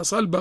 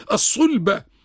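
First: صلبة said with an "a", as "salba"; mispronounced with fatha. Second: الصلبة said with a "u", as "as-sulba"; correct damma vowel. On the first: Scholar quotes people's mistake, صلبة as "salba". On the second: Scholar corrects a common mistake, الصلبة as "as-sulba". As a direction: round the first vowel of الصلبة to "sul-". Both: Shown as a demonstration. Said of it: "بعض الناس بينطقها صلبة غلط".

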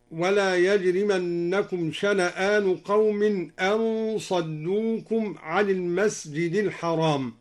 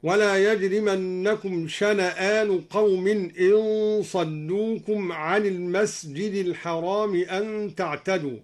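First: Said in the usual way. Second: إن صدوكم read with the hamza given a kasra, in saddukum; slow recitation with إن, in, not an. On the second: Shown as a demonstration. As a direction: give the hamza of إن an i vowel: in saddukum. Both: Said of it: "قرأ الدوري بكسر الهمزة هكذا".

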